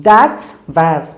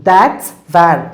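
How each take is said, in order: No difference in how they are said.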